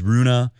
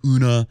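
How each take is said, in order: First: The name begins with an R sound. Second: The name begins with a vowel sound. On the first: "I believe it is Rune" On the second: "Some people say it without the R"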